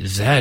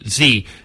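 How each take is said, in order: First: The letter is said the Canadian way. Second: The letter is said the non-Canadian way.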